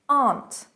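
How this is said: The vowel is a long open ah. This is the British pronunciation.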